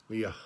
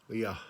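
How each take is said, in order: No difference in how they are said.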